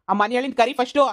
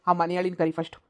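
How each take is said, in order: First: Higher and louder, rising at the end; repeating the demand at full anger; angrier repeat. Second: Said in the usual way. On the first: Acted. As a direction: raise it as he insists.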